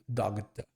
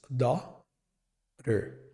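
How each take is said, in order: First: A hard G sound is heard mid-word. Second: No G sound is heard mid-word. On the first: The speaker calls it wrong. "tentar colocar esse som de G no meio dela" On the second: The speaker calls it right. "simplesmente não tem som"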